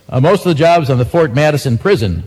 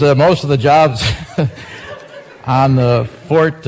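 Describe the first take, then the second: First: Said in the usual way. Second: Breaking into laughter mid-headline, words slowed; can't get through the line for laughing; cracking up. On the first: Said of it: "I can't read this now". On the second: Real, not acted. Radio newsman cracking up reading a joke headline, laughing. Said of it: "I have tears in my eyes".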